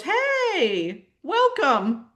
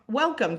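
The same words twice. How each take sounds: First: Ego's much higher, sugary welcome; sly ego. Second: Said in the usual way. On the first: Acted. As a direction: greet her like a fake-friendly trickster. Ego greets her falsely.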